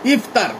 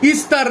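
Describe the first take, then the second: First: The middle consonant is an f sound. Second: The middle consonant is an s sound. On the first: The speaker calls it right. "না ইফতার" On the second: The speaker calls it wrong. "শব্দও মানুষের উচ্চারণ করতে পারে না"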